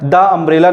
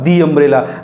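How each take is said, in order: First: The first word has a short 'uh' vowel. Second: The first word has a long 'ee' vowel. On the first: The speaker calls it wrong. "नहीं बोलेंगे" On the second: The speaker calls it right. "तो इसको बोलेंगे हम दी umbrella"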